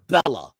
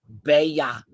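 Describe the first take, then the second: First: The double L is said like an L. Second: The double L is said like a Y. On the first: "everyone will be pronouncing it Bella" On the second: "the L's are pronounced with a Y in Spanish. So actually, it's Bella"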